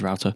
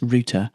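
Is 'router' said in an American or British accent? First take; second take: American; British. First: It is said in an American accent. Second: It is said in a British accent.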